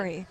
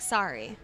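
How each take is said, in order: First: The vowel sounds like the one in 'soaring'. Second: The vowel sounds open, like the one in 'sari'. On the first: "You say sorry. Like a, you're soaring" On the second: "in the States they say it like sorry"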